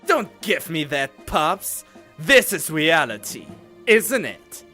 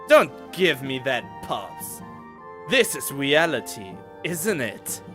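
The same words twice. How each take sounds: First: It is said forcefully, with strong emphasis. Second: It is said mildly, with little emphasis.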